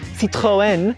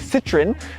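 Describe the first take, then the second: First: The name is said with a French pronunciation. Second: The name is said with a British pronunciation. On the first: "Apparently the French say" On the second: "In the U K they say"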